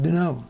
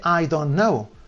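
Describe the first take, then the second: First: The words are squeezed together into one reduced chunk. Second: Every word is said fully and separately. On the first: "dicen do know" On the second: "pero no dice I don't know"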